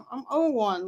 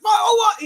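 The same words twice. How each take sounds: First: Said in the usual way. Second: High, raised guard's shout; retold screaming. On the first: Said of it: "And I'm like". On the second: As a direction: imitate a guard screaming the number back. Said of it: "she starts screaming it".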